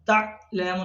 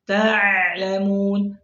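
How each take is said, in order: First: The sound is cut off after the first syllable. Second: The sound flows without a break between syllables. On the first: The speaker calls it wrong. "suara terputus" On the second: The speaker calls it right. "harusnya ta'lamun"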